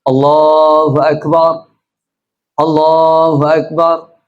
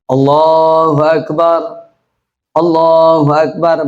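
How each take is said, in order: The two takes are said the same way.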